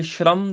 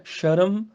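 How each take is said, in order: First: ਸ਼ਰਮ as shramm; half r. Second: ਸ਼ਰਮ as sha-ram; full r. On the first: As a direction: run sh straight into r in ਸ਼ਰਮ. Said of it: "ਕੀ ਫਰਕ ਹੈਗਾ". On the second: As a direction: say ਸ਼ਰਮ with a vowel after sh. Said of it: "ਇਸ ਤਰ੍ਹਾਂ ਬੁਲਾ ਕੇ ਦੇਖਿਓ". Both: Shown as a demonstration.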